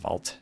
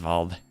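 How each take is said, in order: First: The word ends with a hard T sound. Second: The word ends with a hard D sound. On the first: The speaker calls it wrong. "I wouldn't pronounce that as Wald" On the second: The speaker calls it right. "It's more of a hard D sound, I'd say"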